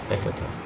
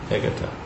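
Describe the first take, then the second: The two takes are said the same way.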